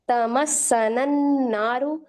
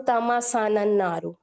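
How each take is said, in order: First: तमस्सनन with the s doubled, slowly; slow correct reading. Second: तमसनन with a single smooth s; wrong smooth reading. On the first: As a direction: hold the doubled s gently. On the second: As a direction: demonstrate the error, slowly. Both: Shown as a demonstration. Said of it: "सीन मैंने smooth निकाल दिया".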